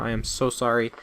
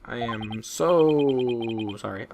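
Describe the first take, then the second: First: Said in the usual way. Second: Very slow, stretched "I am so sorry"; drawn-out apology. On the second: Acted. Streamer apologizing to viewers for the mic noise, slow drawn-out sorry. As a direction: drag out the "so sorry" mockingly. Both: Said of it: "I'm sorry".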